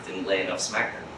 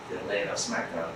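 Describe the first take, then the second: First: Low, soft muttered line; hushed aside. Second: Barely voiced, falling; softer hushed aside. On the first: Teacher quietly confiding the priest's failing. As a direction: drop the voice, almost private. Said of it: "repeated quiet punchline". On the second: Teacher repeating the point under his breath. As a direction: let it sink to a murmur. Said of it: "repeated even softer". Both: Shown as a demonstration.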